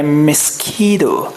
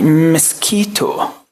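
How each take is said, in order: First: The t is softened into a light d sound. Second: It is said with 'kee' and a clear t. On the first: "التي تي دي هنخليها دي خفيفه كده" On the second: "ممكن تقول مسكيتو عادي"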